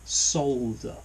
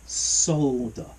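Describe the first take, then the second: First: The word is said with an audible L. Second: The same.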